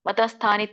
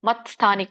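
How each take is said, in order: First: An extra vowel separates mat from sthani. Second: The t joins straight onto sthani. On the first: The speaker calls it wrong. "ಮತ ಮತ ಸ್ಥಾನಿ ತಪ್ಪು" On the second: The speaker calls it right. "ಕೂಡಿ ಹೇಳ್ಬೇಕು"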